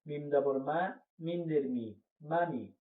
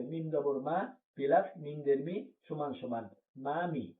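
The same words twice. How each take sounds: First: Quick short vowels in মামি, no lengthening; quick, no drawing out. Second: Slow, step-by-step spelling of each letter; teacher spells it out slowly to show the parts; slow spelled-out reading. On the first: Teacher to students, quick short-vowel reading. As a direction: read মামি briskly with no stretched vowel. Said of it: "এখানে কোনো টানা যাবে না". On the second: Teacher to students, slow spelling of মামি. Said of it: "তাড়াতাড়ি পড়া লাগবে". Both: Shown as a demonstration.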